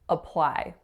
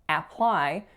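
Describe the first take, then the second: First: The first vowel is a short uh schwa. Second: The first vowel is a full open A. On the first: The speaker calls it right. "We're making a schwa sound. So a really short uh sound" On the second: The speaker calls it wrong. "we are not hearing or making an A sound. We're not saying apply"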